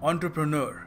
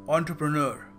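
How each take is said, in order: No difference in how they are said.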